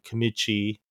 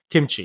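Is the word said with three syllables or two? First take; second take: three; two. First: An extra vowel splits the middle into three syllables. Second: No extra vowel, so it has two syllables. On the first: The speaker calls it wrong. "Why am I saying it weird wrong" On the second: The speaker calls it right. "there's no I in the middle"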